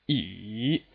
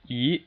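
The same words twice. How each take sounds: First: The pitch dips low, then rises again. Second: The pitch rises steadily from middle to high. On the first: "it starts from two... drops to one... all the way up to four" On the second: "it's just a steady rise"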